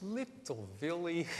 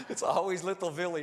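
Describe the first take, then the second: First: Grandma's voice. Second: Said in the usual way. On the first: Retold or imitated. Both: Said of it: "She says".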